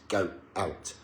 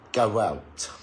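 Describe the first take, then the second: First: The words are separated, with no w between. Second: The words are linked by a gliding w sound. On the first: "if I break it and say go out" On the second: "if I speak naturally and say go out quickly"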